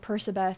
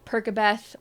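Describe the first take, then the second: First: The middle consonant is an s sound. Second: The middle consonant is a k sound. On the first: "A lot of people think it's Persabeth because his name is Percy, not Perky" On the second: "Perkabeth is just more fun to say. It sounds like Percocet"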